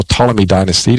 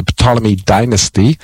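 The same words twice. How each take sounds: First: "Ptolemy" starting on the T sound; silent P. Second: "Ptolemy" with the P sounded; pronounced P. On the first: Radio Bible host offering the alternative, silent P in "Ptolemy". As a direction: say "Ptolemy" as TOL-uh-mee, no P. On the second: Radio Bible host naming a dynasty, P sounded in "Ptolemy". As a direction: say "Ptolemy" as puh-TOL-uh-mee. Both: Shown as a demonstration. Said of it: "depending how you pronounce it".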